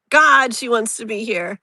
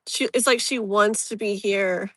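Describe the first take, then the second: First: God pushed a little louder, the whole line leaned on; emphatic repeat. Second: Said in the usual way. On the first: Real, not acted. Reader to Lisa, insisting her late mother longs to be there: emphatic. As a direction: insist on it with feeling.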